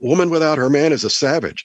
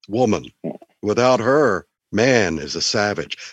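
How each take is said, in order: First: The pause comes right after the word 'man'. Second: The pause comes right after the word 'her'. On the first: A woman is a savage without a man. "I'll use phrases like woman without her man is a savage. Isn't that right?" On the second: A man is a savage without a woman. "Just say it in a way that makes it mean the opposite"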